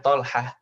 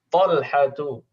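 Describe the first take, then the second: First: The name ends with a soft h sound. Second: The name ends with a full tu syllable. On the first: This is the simple everyday way of saying it. "kalau keseharian nggak ribet ya. Kita bilangnya Talhah" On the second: This is the full, formal reading. "ini kalau kita lengkap baca"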